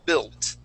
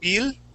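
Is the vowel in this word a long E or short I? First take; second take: short I; long E. First: The vowel is a short I sound. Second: The vowel is a long E sound. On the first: The speaker calls it right. "we're going to use that short I" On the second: The speaker calls it wrong. "like a long E type sound"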